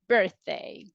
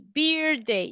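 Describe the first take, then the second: First: The first vowel sounds like in 'bird'. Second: The first vowel sounds like 'ee'. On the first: The speaker calls it right. "it's like a bird" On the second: The speaker calls it wrong. "it's not like E"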